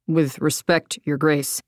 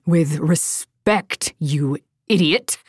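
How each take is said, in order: First: Low, measured polite objection; a lower, grave, deferential soldier voice; wary soldier. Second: Slow, sarcastic, lower snap; drawn-out mocking "with respect"; snapping. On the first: Soldier addressing Darina. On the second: Darina mocks the soldier's words, slow and cutting. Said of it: "Darina snapped". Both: A narrator's reading.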